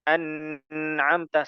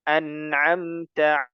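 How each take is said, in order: First: The n sound is lengthened and held. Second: The n sound is short, not held. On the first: The speaker calls it wrong. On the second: The speaker calls it right. "Yang betul"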